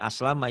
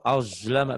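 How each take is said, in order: First: The consonant is a plain, light s sound. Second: The consonant is a thick, deep z sound. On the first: The speaker calls it wrong. "Bukan aslama ya" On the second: The speaker calls it right. "Z tapi lebih tebel. Tapi ke dalam"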